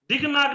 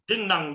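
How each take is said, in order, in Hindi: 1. पहला शब्द स्पर्श ध्वनि पर खत्म होता है। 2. पहला शब्द नासिका ध्वनि पर खत्म होता है। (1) "दिग नाग नहीं बनेगा" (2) "डिंग नांग बनेगा"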